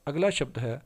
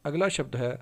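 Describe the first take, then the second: Both takes have the same delivery.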